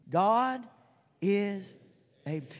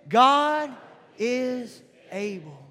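First: It is said plainly, without much force. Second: It is said forcefully, with strong conviction.

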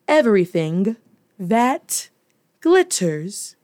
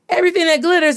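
First: The ending consonants are clearly pronounced. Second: The ending consonants are softened or dropped. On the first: This is the formal standard way of saying it. "let me say it the formal way" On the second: This is the speaker's natural home way of saying it. "I do not enunciate and really stress my ending consonants"

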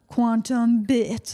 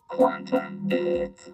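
First: It is said in a plain reading voice. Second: It is said in a put-on cool voice.

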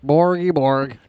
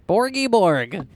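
First: It is said in a deeper voice. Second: It is said in a higher voice.

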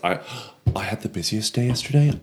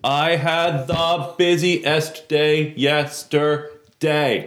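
First: It is said at a softer, normal volume. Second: It is said with a loud, raised voice. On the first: The speaker calls it right. "You said that once, only softer" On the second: The speaker calls it wrong. "you don't need to raise your voice"

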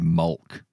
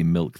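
First: The vowel is a darker 'uh' sound. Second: The vowel is a clear 'ih' sound. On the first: "Glasgow accents are very similar. ... they see mulk" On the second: "people don't see milk"

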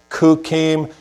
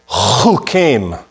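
First: The word begins with a hard k sound. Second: The word begins with a throaty ch sound. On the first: The speaker calls it wrong. "You don't say kukim" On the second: The speaker calls it right. "I want you to say chukim"

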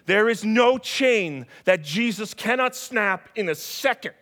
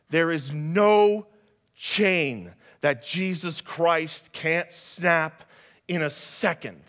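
First: It is said at normal speed. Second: It is said slowly.

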